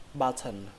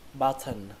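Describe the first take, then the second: Both takes have the same delivery.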